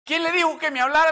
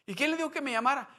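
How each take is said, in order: First: Much louder, higher, fast cry; climactic shouted question. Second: Higher, fast urgent question; first urgent question. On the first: Acted. Climax of sermon story. (pregunta gritada en el clímax) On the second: Retold or imitated. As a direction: ask it fast, rattled. Sister asks who told him. (pregunta rápida y agitada)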